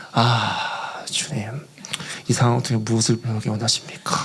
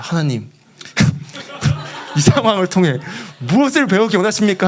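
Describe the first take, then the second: First: Low, hushed plea to God; quiet sighing prayer. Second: Half-laughing, worked-up plea; mock exasperated prayer. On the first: Retold or imitated. Missionary alone before tea fields asking God, quiet sighing prayer. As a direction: sigh it out low, resigned. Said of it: "조용히 가서 거기 홍차 실론티 밭을 보면서". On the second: Fuming missionary questioning God, exasperated mock prayer. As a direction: demand an answer with comic frustration. Angry man asks God, comic.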